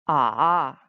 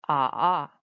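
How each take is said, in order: Both takes have the same delivery.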